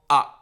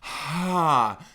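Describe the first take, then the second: First: The vowel starts with a sharp catch in the throat. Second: The vowel starts with a breathy puff of air. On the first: "There's glottal" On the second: "aspirate, where your vocal folds start kind of apart with a burst of air"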